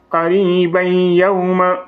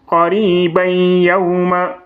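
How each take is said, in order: No difference in how they are said.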